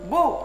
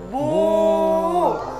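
First: The u vowel is short. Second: The u vowel is drawn out long. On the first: "tidak boleh dibaca panjang" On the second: "maka dibaca panjang"

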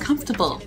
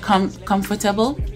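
First: The word is said with the local pronunciation. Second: The word is said with a Jamaican pronunciation. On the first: "how you guys pronounce it over here" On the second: "when I say comfortable"

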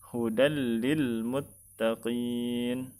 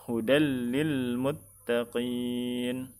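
Both takes have the same delivery.

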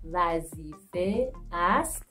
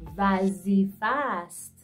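First: Two separate words, the final vowel fully kept. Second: The words merge into one, the vowel dropped. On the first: "Vazife ast turns into vazifast" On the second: "turns into vazifast"

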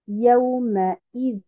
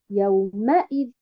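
First: The stress falls on the 'ya' syllable. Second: The stress falls on the 'ma' syllable. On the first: The speaker calls it right. "je mets l'accentuation bien en abord sur harakat al-ya, puis après sur harakat al-hamza" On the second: The speaker calls it wrong. "Et non pas yaoumaïd. Hein, je ne mets pas un abord sur harakat el-mim"

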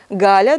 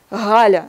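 First: The first consonant is a hard stop g. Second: The first consonant is a breathy fricative g. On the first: This is the standard form. "У нас хорошо" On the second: This is the southern dialect form. "а это фрикативное г, как Галя"

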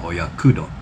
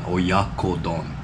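First: The second syllable is pronounced 'ku'. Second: The second syllable is pronounced 'ko'. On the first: The speaker calls it wrong. "not oyakudon" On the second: The speaker calls it right. "My mom always corrects me on it. Oyakodon"

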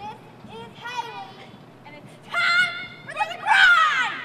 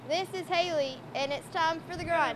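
First: It is said with strong intensity. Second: It is said calmly, without intensity.

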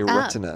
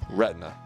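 First: The T is crisp, with three full syllables. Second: The T is soft and the word is reduced. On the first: It is how retina specialists say it. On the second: It is how most people say it.

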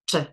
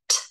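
First: A duller T with the tongue further back. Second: A sharp T with the tongue behind the teeth. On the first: "they would make the contact further back" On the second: "I'm talking about the sharp T"

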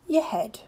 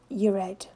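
First: The H at the start of head is pronounced. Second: The H at the start of head is dropped.

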